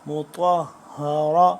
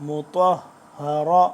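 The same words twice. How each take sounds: The two takes are said the same way.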